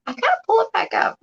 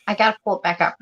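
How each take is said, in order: First: High, whimpering whine; mock crying whine. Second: Said in the usual way. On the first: Shown as a demonstration. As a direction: whine it like a sulky child. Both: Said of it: "repeated in a whiny take".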